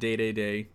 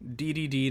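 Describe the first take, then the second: First: Each syllable has an 'ay' vowel, like 'day'. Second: Each syllable has an 'ee' vowel, like letter D. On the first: The speaker calls it wrong. "not day-day-day" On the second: The speaker calls it right. "D-D-D, not day-day-day"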